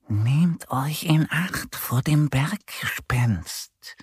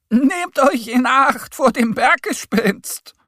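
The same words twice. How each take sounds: First: Slow, eerie whispered warning; whispering fox. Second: High, loud shouted warning; called-out warning. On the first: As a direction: whisper it slowly as a secretive fox. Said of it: "Der Fuchs spitzt aus dem Busch heraus und flüstert". (langsam geflüsterte Warnung) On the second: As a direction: shout it high to hikers as you pass. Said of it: "ruft ihnen zu". (hoch und laut zugerufene Warnung) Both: A narrator's reading.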